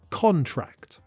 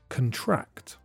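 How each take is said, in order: First: The stress is on the first syllable. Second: The stress is on the second syllable. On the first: It is a noun: a legal agreement document. "When the word is a noun, the stress is on the first syllable and you can hear the o sound" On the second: It is a verb: to make a legal agreement. "When it's a verb, the stress is on the second syllable, and the weak first syllable has the schwa sound"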